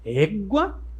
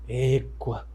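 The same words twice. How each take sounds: First: It is said in a happy, cheerful tone. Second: It is said in an annoyed, upset tone. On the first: The speaker is happy. "Tá feliz?" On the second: The speaker is upset. "Tá chateado?"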